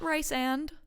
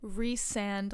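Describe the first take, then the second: First: The first syllable rhymes with 'rice'. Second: The first syllable rhymes with 'Reese'. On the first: The speaker calls it wrong. "not Rice and" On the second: The speaker calls it right. "like Reese's Pieces and Reese and"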